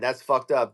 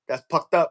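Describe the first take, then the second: First: The word starts with an F sound. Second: The word starts with a P sound. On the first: "instead of saying" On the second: "They uh they substitute the eh, all the F's or P's"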